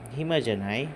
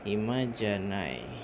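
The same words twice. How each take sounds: First: The voice rises at the end. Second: The voice falls at the end. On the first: It asks whether the listener is free. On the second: It states that one is not free.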